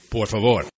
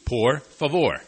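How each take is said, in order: First: The two words are run together. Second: The two words are said separately. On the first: The speaker calls it right. "They say" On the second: The speaker calls it wrong. "it's two, por favor. But no one says it like that"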